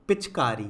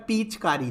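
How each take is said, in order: First: पिचकारी with a quick, short पि; correct short vowel. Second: पीचकारी with a long पीई at the start; wrong long vowel. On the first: Teacher gives the right word, short vowel. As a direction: clip the first i of पिचकारी short. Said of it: "क्या होता है?". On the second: Teacher reads out the misspelling, long vowel. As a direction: stretch the first ee in पीचकारी. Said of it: "जी बिल्कुल नहीं". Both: Shown as a demonstration.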